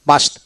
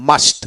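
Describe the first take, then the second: No difference in how they are said.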